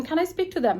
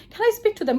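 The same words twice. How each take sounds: First: Said in the usual way. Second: Eager, slightly higher pleading; excited request to see family; happy eager asking. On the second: Retold or imitated. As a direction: beg happily to speak to family. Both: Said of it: "I got so happy".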